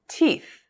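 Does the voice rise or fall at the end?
fall. The voice falls at the end.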